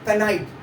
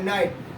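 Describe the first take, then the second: First: A k sound is heard before the n. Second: No k sound is heard before the n. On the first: The speaker calls it wrong. "कुछ बच्चे इसको क्या पढ़ते हैं, कनाइट ... ये कनाइट नहीं हुआ" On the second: The speaker calls it right. "के साइलेंट होगा ... नाइट हो रहा है"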